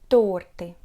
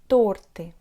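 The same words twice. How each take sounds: No difference in how they are said.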